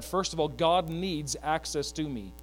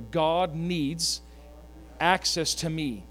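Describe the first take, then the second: First: God needs access to me spoken slowly, every word weighted; slow emphatic line. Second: God needs access to me said again, slow and weighted; echoed slowly. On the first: Preacher sets up a call-and-response, slow and weighted. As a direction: lay it out slowly for the church to echo. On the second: Congregation echoes the preacher, slow and weighted. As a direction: repeat it slowly with the church. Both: Shown as a demonstration. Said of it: "Can we say that together".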